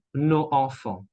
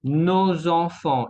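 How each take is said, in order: First: Nos enfants with a silent s and a break; nos, then enfants, unlinked; missing liaison. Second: Nos enfants with the s linked as a z; liaison. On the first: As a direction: split "nos enfants", no z between the words. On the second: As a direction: link "nos enfants" smoothly, z before enfants. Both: Shown as a demonstration. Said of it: "y no nos enfants".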